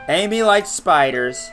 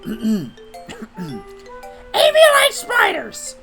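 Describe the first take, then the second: First: It is read in the speaker's natural voice. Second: It is read in a put-on character voice.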